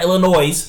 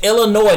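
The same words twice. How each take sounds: First: The final s is pronounced. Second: The final s is silent. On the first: The speaker calls it wrong. "not Illinois" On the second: The speaker calls it right. "it's Illinois"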